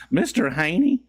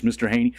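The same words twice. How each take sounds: First: Raised, questioning sitcom voice; Green Acres impression. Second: Said in the usual way. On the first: Streamer imitating a Green Acres line, raised character voice. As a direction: call the name high, rising at the end. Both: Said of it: "Green Acres, Mister Haney".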